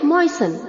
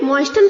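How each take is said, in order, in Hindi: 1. t की ध्वनि पूरी तरह छोड़ दी जाती है। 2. t की ध्वनि बीच में बोली जाती है। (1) "टी साइलेंट है तो हमें इसे प्रोनाउंस करना है मॉइसन" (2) "इसे हमें मॉइस्टन प्रोनाउंस नहीं करना है"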